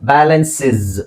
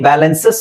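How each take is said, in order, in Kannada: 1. ಕೊನೆಯ ಉಚ್ಚಾಂಶದಲ್ಲಿ ಹ್ರಸ್ವ 'i' ಸ್ವರ ಇದೆ. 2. ಕೊನೆಯ ಉಚ್ಚಾಂಶದಲ್ಲಿ 'a' ಸ್ವರ ಇದೆ. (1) "ಆಕ್ಚುಲಿ ನಿಮಗೆ ಗೊತ್ತಾ, ಇದರ ಉಚ್ಚಾರಣೆ ಬ್ಯಾಲೆನ್ಸಿಸ್" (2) "ಬ್ಯಾಲೆನ್ಸಸ್ ಅಂತ ಹೇಳ್ತೀವಿ"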